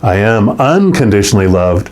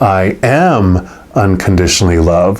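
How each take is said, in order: First: The word "unconditionally" carries the main stress. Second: The word "am" carries the main stress. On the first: It comes with no conditions. "And then we talked about the unconditionally" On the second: It is true right now. "sitting with it in the moment, I am right this second"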